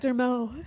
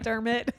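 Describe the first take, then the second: First: The name is said in a French-sounding way. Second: The name is said in a plain English way.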